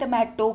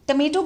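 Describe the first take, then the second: First: The middle syllable has an 'ah' vowel. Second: The middle syllable has an 'ay' vowel. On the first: The speaker calls it wrong. "कई बच्चे इसको बोलते हैं टमाटो" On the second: The speaker calls it right. "टमेटो बोलते हैं इसको"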